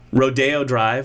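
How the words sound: It is said the way Californians say it.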